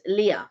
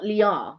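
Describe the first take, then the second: First: Leah as "LEE-uh", no r; R left silent. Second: Lear as "lee-AR", final r sounded; R pronounced. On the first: Co-host showing the right way, Leah as "lee-uh". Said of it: "you don't pronounce the R". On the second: Co-host showing the wrong way, Lear as "lee-ar". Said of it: "it's not Lear". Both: Shown as a demonstration.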